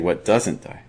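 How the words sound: The stress is on doesn't.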